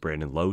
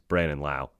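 First: The surname's vowel rhymes with low. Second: The surname's vowel rhymes with cow. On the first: The speaker calls it wrong. "he's always Brandon Lowe to me" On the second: The speaker calls it right. "So my apologies, Brandon Lau, obviously"

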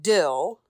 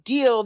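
First: The vowel is a short 'ih' sound. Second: The vowel is a long 'ee' sound. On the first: "they say no big dill" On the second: "no big deal"

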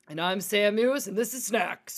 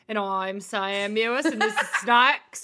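First: It is delivered in a put-on news-anchor voice. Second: It is delivered in a put-on Australian accent. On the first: "Do it in news anchor form" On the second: "Do it in your Australian accent"

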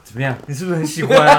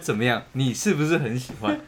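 First: It is said at a faster pace. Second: It is said at a slower pace.

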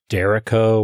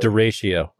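First: The word is said to rhyme with Jericho. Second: The word is said not rhyming with Jericho. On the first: The speaker calls it wrong. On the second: The speaker calls it right.

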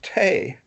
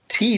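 First: The vowel sounds like 'ay' in 'say'. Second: The vowel sounds like 'ee' in 'see'. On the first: This is the old upper-class British way of saying it. "which was the upper class British way of saying tea" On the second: This is the American way of saying it. "tea doesn't rhyme with away in America"

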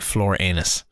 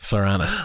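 First: It sounds like two words, floor and anus. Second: It sounds like one smoothly joined word. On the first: The speaker calls it wrong. "Not like floor anus" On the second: The speaker calls it right. "but like Floranus"

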